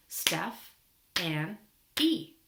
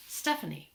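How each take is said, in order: First: Broken into syllables. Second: Said in the usual way. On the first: Shown as a demonstration. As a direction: clap out STEPH... ANN... E with pauses between. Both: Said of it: "We can clap it out".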